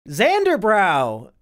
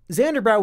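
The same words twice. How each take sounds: First: 「Xanderbrow!」をゆっくり引き伸ばして大声で呼ぶ; 遠くの人を呼ぶように名前を長く伸ばす; calling out. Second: Said in the usual way. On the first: Real, not acted. Calls out to a chatter.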